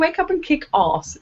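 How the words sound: It is said in an English accent. "over here we say"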